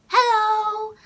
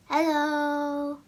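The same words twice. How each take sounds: First: High, loud, drawn-out greeting; high-pitched hello. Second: Drawn-out hello in another voice; people greeting her. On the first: Shown as a demonstration. Vlogger showing how she greets people online, high-pitched. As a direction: sing out a held, high hello. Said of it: "I'm like". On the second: Retold or imitated. People answering her in real life, drawn-out imitation. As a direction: imitate a mildly surprised listener. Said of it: "people would be like".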